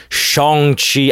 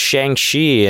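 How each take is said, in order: First: Shang-Chi slower, with an open "ah" in "Shahng"; corrected Shang-Chi. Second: Shang-Chi with a flat "a" as in "bang"; anglicized Shang-Chi. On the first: Mock-correcting himself to coworkers, snobbish "Shahng-Chi". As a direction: correct yourself to a careful "Shahng-Chi", drawn out a bit. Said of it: "I don't wanna say it like that". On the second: Telling coworkers about the movie, casual anglicized "Shang-Chi". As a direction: say "Shang-Chi" the plain American way, "Shang" rhyming with "bang". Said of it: "I'm an uncultured swine. I mean". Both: Shown as a demonstration.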